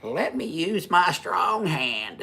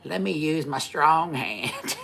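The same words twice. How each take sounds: First: High, slow, hammed-up movie line; Scary Movie quote. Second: High, slow mock movie line; Scary Movie quote. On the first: Joking to his wife, a slow high mock movie line. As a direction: stretch it out high like the spoof film. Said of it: "have you seen, is it Scary Movie?". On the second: Teasing his wife, a slow high mock movie line. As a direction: draw it out high as a running joke. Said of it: "so I'm always like".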